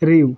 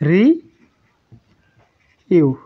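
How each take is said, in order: First: The syllables merge into a single syllable. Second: Two separate syllables, ri then yu. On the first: The speaker calls it right. "কিন্তু এটি হয়ে যাবে রিউ" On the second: The speaker calls it wrong. "রি ইউ কি হওয়ার কথা ছিল"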